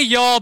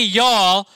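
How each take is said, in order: First: Y'all pitched higher and louder; stressed y'all. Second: Y'all said louder, set apart; stressed y'all. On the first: Preacher setting the second y'all against the first, stressed. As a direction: punch y'all as the example word. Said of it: "you say". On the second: Preacher pointing out the word y'all, stressed. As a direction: lean into y'all with a Southern lilt. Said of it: "if you say". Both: Shown as a demonstration.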